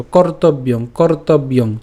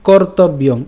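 First: "কর্তব্যং" as one joined word; said together. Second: "কর্তব্যং" in distinct syllables; broken up. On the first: Teacher saying we join this too, connected word. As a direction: run "কর্তব্যং" through without a break. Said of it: "এটাও আমরা একসাথে উচ্চারণ করবো". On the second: Teacher breaking the word for learners, split demo. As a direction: separate কর, তব and ইয়ং in "কর্তব্যং". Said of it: "শ্লোকটি আমি ভেঙে দিয়েছি". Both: Shown as a demonstration.

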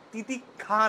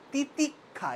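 First: তিতিক্ষা said the rejected way, ti-ti-kha without the doubled k; wrong pronunciation. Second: তিতিক্ষা said right, ti-tik-kha, a little higher; correct pronunciation. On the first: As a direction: demo how not to say তিতিক্ষা. (ভুল উচ্চারণে তিতিক্ষা) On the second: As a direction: model the correct তিতিক্ষা after the wrong one. (শুদ্ধ উচ্চারণে তিতিক্ষা) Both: Shown as a demonstration. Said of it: "তিতিক্ষা না".

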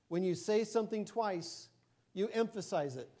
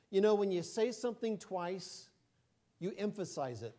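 First: "you emphasize it" restated with firmer, higher emphasis; emphatic repeat. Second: Said in the usual way. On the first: Shown as a demonstration. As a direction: repeat it pointedly, leaning on "say something twice" and "emphasize". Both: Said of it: "Get what I did there?".

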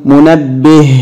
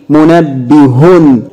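First: منبه said munabbih, ending on a stopped h. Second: منبه said slowly as munabbihun with the vowelled h; with full vowels. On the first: Teacher models the pausal form to the class. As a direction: cut منبه off on the final h. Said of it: "طب بالسكون". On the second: Teacher models the vowelled form to the class. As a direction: stretch منبه with its full case ending. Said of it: "هننطقها أيضًا مرتين بالتشكيل". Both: Shown as a demonstration.

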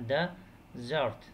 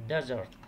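First: "desert" broken into two separate syllables; "desert" slowly, one beat per syllable; split into syllables. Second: Said in the usual way. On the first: Shown as a demonstration. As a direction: pause at the syllable break inside "desert". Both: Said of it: "الفاصل هنا".

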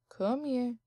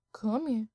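The two takes are said the same way.

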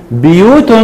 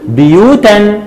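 First: بيوت said slowly ending in "-tun", "buyūtun"; tanween with damma. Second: بيوتا said slowly with a clear final -an, "buyūtan"; tanween with fatha. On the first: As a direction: close بيوت with a rounded "-tun". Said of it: "وعند التنوين بالضم هقول". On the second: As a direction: stretch بيوتا out and land on the ending "-tan". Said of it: "عند التنوين بالفتح لازم أزود الألف". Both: Shown as a demonstration.

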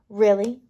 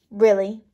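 Both takes have the same delivery.

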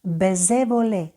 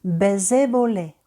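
First: Baiser volé repeated, closed é, falling volé; French e sound. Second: Baiser volé with closed French é, volé falling; French e sound. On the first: Teacher repeating the e sound for students. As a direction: repeat it clean, é precise. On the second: Teacher modelling the e sound in Baiser volé. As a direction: stress volé, clean é vowels. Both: Shown as a demonstration. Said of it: "Пригадуємо звук е".

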